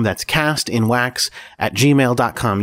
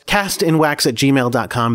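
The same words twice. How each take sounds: First: Very slow, each word separated; very slow, spelled-out email. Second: Slow, clear email read. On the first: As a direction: read the address out carefully. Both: Shown as a demonstration.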